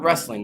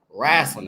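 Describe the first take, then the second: First: The word is said in a standard accent. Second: The word is said in a local rural accent. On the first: This is how others usually say it. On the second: This is how the grandmother said it. "that's how you said it"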